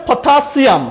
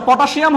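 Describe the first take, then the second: First: "পটাশিয়াম" as potha-SIAM; a clean s in "পটাশিয়াম"; corrected S sound. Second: "পটাশিয়াম" as pota-SHIAM; a sh sound in "পটাশিয়াম"; mispronounced SH. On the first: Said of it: "এটার নাম হচ্ছে". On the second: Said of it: "পটাশিয়াম হবে না". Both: Shown as a demonstration.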